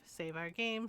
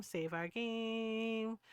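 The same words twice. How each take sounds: First: Said in the usual way. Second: Very slow, stretched words; drawn out. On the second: Pretend. Reminding herself to save the game, playfully drawn out. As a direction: hold GAME long and playfully.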